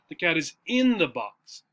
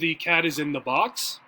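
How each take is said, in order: First: The stress is on in. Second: The stress is on cat and box.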